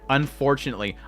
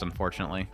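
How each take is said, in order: First: The word is said with strong emphasis. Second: The word is said plainly, without extra emphasis.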